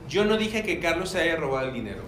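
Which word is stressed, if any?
none. The sentence is said with neutral, even emphasis. "esa es la, como la oración"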